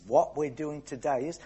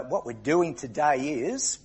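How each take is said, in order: First: Said in the usual way. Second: Drawn out. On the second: Shown as a demonstration.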